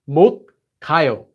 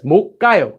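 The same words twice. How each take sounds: First: The consonant starting 가 is plain, not doubled. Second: The consonant starting 가 is tense and doubled. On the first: The speaker calls it wrong. "It's not 못 가요" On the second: The speaker calls it right. "You can hear it's 못 가요"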